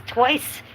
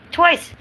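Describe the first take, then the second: First: Said in the usual way. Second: Twice said much higher and louder; indignant Twice, pitched way up and loud; emphatic repeat. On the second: Real, not acted. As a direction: hit Twice hard in disbelief.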